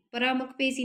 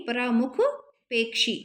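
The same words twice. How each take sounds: First: परामुख पेशी with a simple sibilant in पेशी; wrong form पेशी. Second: परामुख, pause, पेक्षी with a clear ksh; corrected form पेक्षी. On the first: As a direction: say पेशी without any k sound. (परामुख पेशी, बिना क की ध्वनि के) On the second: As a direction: split it and sound k-sh in पेक्षी. (परामुख पेक्षी, क्ष साफ़ बोलकर) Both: Shown as a demonstration. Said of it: "परामुख पेशी नहीं".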